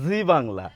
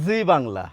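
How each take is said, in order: The two takes are said the same way.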